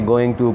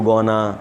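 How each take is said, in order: First: 'Going to' is said as two full words. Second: 'Going to' is blended into 'gonna'. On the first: "गोइंग टू को गोना" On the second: "गोइंग टू को गोना"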